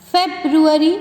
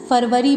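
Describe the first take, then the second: First: It is said with an English-style pronunciation. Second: It is said with a Hindi-style pronunciation. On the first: The speaker calls it right. "Listen to it very carefully" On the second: The speaker calls it wrong. "That is wrong. वैसे हिंदी महीनों के लिए बोला जाता है"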